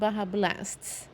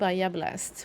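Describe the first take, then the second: First: The name is pronounced the English way. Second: The name is pronounced the Swedish way. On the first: The speaker calls it right. "apparently that's how you pronounce it" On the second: The speaker calls it wrong. "which is what I would say in Swedish"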